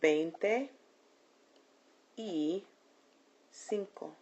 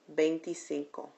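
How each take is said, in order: First: It is said slowly, as three separate words. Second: It is said quickly, as one joined word. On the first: It sounds like a sum of two numbers. "Said slowly, it sounds like a math problem" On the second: It sounds like one whole number. "Said quickly or without any pauses"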